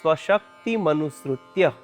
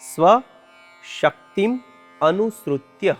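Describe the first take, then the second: First: The three parts are run together as one word. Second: The three parts are said separately with breaks. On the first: "આખો શબ્દ ભેગો થઈ" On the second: "એમાં ત્રણ શબ્દો સમાયેલા છે"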